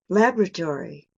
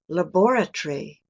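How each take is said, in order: First: It is said in a non-British accent. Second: It is said in a British accent. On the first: "here's my pronunciation" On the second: "I'm going to make an effort to say this in a British way"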